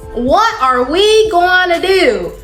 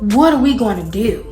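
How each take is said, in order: First: It is said in a country accent. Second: It is said in her ordinary voice.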